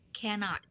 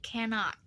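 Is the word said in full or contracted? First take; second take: full; full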